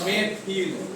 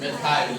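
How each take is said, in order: First: The ending is a short 'il' sound. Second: The ending is a long 'ile' sound. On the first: "इल जुड़ेगा तो इल जोड़ने पर क्या बनेगा? मेथिल" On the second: "आइल जोड़ने पर क्या बनेगा? मेथाइल"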